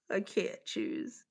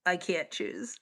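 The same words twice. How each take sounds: First: Slow, soft whispered despair. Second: Whispered indecision. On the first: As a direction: whisper it slowly, torn between them. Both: Real, not acted. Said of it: "whispered indecision".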